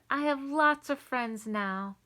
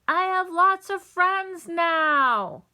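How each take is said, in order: First: It is said at normal, quieter volume. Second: It is said very loudly.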